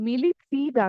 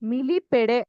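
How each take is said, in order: First: The ending is said as one syllable, peed. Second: The ending is said as two syllables, pe-deh. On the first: The speaker calls it right. "ಮಿಲಿಪೀಡ್ ಆಗತ್ತೆ ಪ್ರನೌನ್ಸ್ ಮಾಡ್ಬೇಕಾದ್ರೆ" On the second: The speaker calls it wrong. "ಮಿಲಿಪೆಡೆ ಆಗಲ್ಲ"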